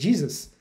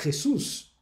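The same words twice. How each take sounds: First: It is pronounced the English way. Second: It is pronounced the Spanish way. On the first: "como é o caso do inglês" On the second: "você vai falar em espanhol"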